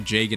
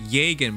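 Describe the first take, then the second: First: The name is pronounced the English way. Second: The name is pronounced the German way. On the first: "when you hear the English V As pronounce it, they say Jagen" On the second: "It's supposed to be Jagen by German"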